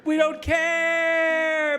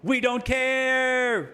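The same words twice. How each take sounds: First: Hammed-up American yell, much higher and louder, very slow; mock shout. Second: Mock American, higher, slow and drawn out; brash American. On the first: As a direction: bellow it like a cartoon superpower. Mocking voice builds to shout. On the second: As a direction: play the smug superpower shrugging it off.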